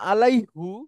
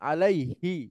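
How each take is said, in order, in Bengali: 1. শব্দটি 'hoo' ধ্বনি দিয়ে শেষ হয়। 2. শব্দটি 'hee' ধ্বনি দিয়ে শেষ হয়। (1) "ছিল মূলত আলাই হু, কিন্তু এটা ব্যবহার হয় না" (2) "বলা হয় আলাই হি"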